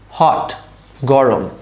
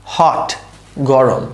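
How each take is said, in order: Both takes have the same delivery.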